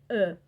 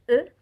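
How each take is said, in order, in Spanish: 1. La vocal se dice con la boca más abierta. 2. La vocal se dice con la boca cerrada. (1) "y en otros más abierta" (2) "En unos casos va a ser cerrada"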